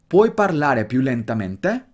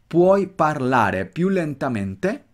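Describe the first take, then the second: First: It is spoken at a natural, quicker pace. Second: It is spoken slowly with clearly marked stress. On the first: "ahora velocidad un poquito más natural" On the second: "Nota el acento bien marcado"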